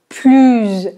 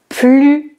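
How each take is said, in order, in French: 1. Le mot se termine par un son z de liaison. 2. Le mot se termine sans consonne finale prononcée. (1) "c'est la prononciation plus. Il fait de plus en. Et oui, parce que le mot qui suit commence par une voyelle" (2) "donc on ne prononce pas le S"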